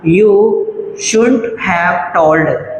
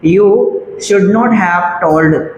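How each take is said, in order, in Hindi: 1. Should और not एक छोटे से एक अक्षर में मिलकर बोले जाते हैं। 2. Should और not अलग-अलग शब्दों की तरह बोले जाते हैं। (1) "यू शुडंट या शुंट" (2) "या शुड नॉट ही बोल लीजिए"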